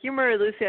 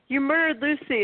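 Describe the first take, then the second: First: It is said flatly, without much feeling. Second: It is said angrily, with strong feeling. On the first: The speaker calls it wrong. "She doesn't say it like" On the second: The speaker calls it right. "She's mad at him"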